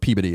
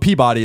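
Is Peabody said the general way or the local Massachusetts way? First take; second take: local; general. First: It is said in the local Massachusetts way. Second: It is said in the general, widespread way. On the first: It names the town in Massachusetts. "but Peabody is how you would say the town" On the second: It names the award. "So Peabody is how you say the award"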